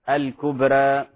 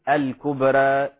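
Both takes have the same delivery.

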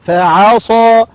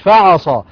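First: The second vowel is held for two counts. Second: The second vowel is short, not lengthened. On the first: The speaker calls it right. "ألف مادة طبيعية حركتان" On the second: The speaker calls it wrong. "مش فعصا"

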